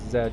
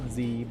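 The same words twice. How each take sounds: First: The letter is said as 'zed'. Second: The letter is said as 'zee'. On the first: This is the speaker's natural Canadian reading. "I naturally read that as Z because I'm a Canadian" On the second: This is how the title is meant to be said. "I know it's Z"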